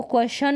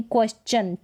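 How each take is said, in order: First: क्वेश्चन misread as "kwe-shan", no "ch"; wrong SH pronunciation. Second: क्वेश्चन as "kwes-chan", with a clear च; T read as CH. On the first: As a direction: say क्वेश्चन with only a "sh" sound. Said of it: "नहीं पढ़ेंगे". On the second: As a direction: correct it to क्वेश्चन with S then "ch". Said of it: "च का sound देगा". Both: Shown as a demonstration.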